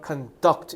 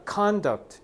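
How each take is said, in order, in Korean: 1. 강세는 두 번째 음절에 있어요. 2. 강세는 첫 번째 음절에 있어요. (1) "여기다가 강세를 줘서 conduct 이렇게 발음하면 무슨 뜻? 동사니까 수행하다" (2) "너네 액센트 앞에다 두잖아. conduct 이러면 행위, 행동이란 뜻이야"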